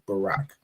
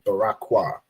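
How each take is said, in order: First: The name ends with a plain k sound. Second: The name ends with an extra 'kwa' syllable. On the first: The speaker calls it right. "so it just ends in like Barak" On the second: The speaker calls it wrong. "you obviously you want to say Barak Kwa"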